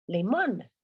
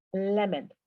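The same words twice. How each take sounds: First: "Limón" with a full "on", stressed at the end; Spanish-style reading. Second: "lemon" stressed first, ending in "en"; English pronunciation. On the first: Teacher giving the word before correcting it, "Limón" as lee-MON. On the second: Teacher applying the O N rule, "lemon" as LEM-en. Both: Shown as a demonstration. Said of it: "Se pronuncia".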